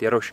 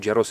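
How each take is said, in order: First: The name ends with a sh sound. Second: The name ends with an s sound. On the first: This is the original Polish or Czech form. "takže jako by to mělo být Jaroš" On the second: This is how it is said in America. "nicméně v Americe je to Jaros"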